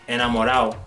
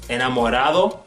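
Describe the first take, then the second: First: The d before the final o is dropped. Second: The d before the final o is pronounced.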